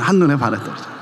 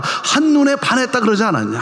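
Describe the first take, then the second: First: 한눈에 반했다 said lower, through a laugh; laughing retelling. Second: Said in the usual way. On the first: Retold or imitated. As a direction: chuckle as you repeat 한눈에 반했다 그러지 않았냐. Punchline repeated through laughter.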